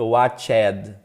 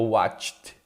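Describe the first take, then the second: First: The ending is said as an extra syllable. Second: The ending joins the word as one syllable. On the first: The speaker calls it wrong. "Não fica watched, não" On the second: The speaker calls it right. "esse D é um sopro... não vai formar sílaba"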